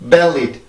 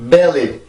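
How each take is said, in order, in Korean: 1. 첫 번째 모음은 아주 짧고 좁아요. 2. 첫 번째 모음은 아주 짧고 좁아요.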